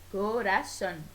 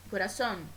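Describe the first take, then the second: First: "corazón" split into co-ra-zón; "corazón" in three measured beats, co, ra, zón; syllable by syllable. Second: Said in the usual way. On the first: Shown as a demonstration. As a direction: pause between each syllable of "corazón". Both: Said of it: "la división silábica".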